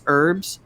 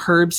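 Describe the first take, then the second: First: The H sound is dropped. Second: The H sound is pronounced. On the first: "Why drop the H?" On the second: "I call them herbs here"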